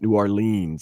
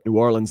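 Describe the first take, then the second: First: Orleans is said long, with three syllables. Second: Orleans is said short, with two syllables. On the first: This marks the speaker as an outsider. The speaker calls it wrong. "not New Orleans" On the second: This is how locals say it. The speaker calls it right. "call it New Orleans"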